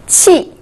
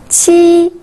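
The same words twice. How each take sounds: First: The pitch falls sharply from high. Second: The pitch stays high and level.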